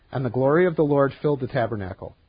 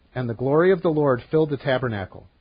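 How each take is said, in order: Both takes have the same delivery.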